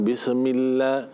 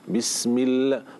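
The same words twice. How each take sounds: First: The vowelless consonant is said loosely, not pressed. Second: The vowelless consonant is pressed firmly and held. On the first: The speaker calls it wrong. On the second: The speaker calls it right. "harus ditekan kepada sukunnya"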